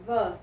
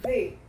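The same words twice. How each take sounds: First: 'V' as 'thuh', voiced th and schwa; 'V' with tongue between teeth, ending in uh; 'the' before consonants. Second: 'V' as 'thee', voiced th and ee; 'V' with tongue between teeth, ending in ee; 'the' before vowels. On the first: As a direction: say 'V' as a short closed 'thuh'. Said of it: "palavras que começam com som de consoante". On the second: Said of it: "palavras que começam com som de vogal". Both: Shown as a demonstration.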